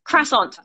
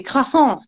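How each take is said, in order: First: CROISSANT the English way, "krass-ONT"; English-accented CROISSANT, sounding the final t. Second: CROISSANT in a French accent, nasal ending without a t. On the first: Contrasting with the French, English-accented "krass-ONT". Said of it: "If you're English". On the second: Showing how French people say it, French-accented CROISSANT. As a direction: say "krwa-SON" à la française, French accent. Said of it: "more of a French accent". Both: Shown as a demonstration.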